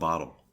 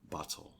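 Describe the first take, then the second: First: The middle consonant sounds like a D. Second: The middle consonant sounds like a T. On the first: The speaker calls it wrong. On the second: The speaker calls it right.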